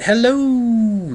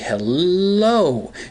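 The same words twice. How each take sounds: First: The o sound is drawn out long. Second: The l sound is drawn out long. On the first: "If you add the O's" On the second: "If you add a couple L's to it"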